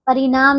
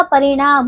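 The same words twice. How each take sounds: First: परिणाम with a plain dental n. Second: परिणाम with a curled retroflex n. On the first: Teacher showing the wrong परिणाम with plain n. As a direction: say परिणाम as pari-naam. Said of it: "परिणाम नहीं होता". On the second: Teacher correcting pupils, परिणाम with retroflex n. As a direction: curl the tongue for ण in परिणाम. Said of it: "परिणाम होता है". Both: Shown as a demonstration.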